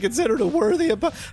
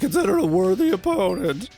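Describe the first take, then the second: First: The voice is at a lighter, less deep pitch. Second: The voice is pushed down very deep.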